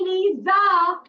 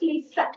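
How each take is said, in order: First: The middle consonant is a buzzing Z sound. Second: The middle consonant is a hissing S sound. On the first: The speaker calls it wrong. "Don't say Lisa" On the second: The speaker calls it right. "because here is the S. So it is Lisa"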